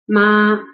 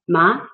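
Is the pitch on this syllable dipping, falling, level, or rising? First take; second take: level; rising. First: The pitch stays high and level. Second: The pitch rises from middle to high. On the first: "The first flat tone" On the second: "And the second rising tone"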